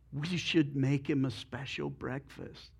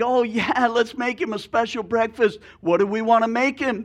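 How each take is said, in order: First: Softer, lower chicken with a plan; scheming chicken. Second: Higher, louder, delighted pig; eager pig. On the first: Chicken suggesting breakfast to the pig, soft and sly. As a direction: say it softly, like a sly idea. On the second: Pig cheering the breakfast plan to the chicken, excited. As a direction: jump on the idea with glee. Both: Acted.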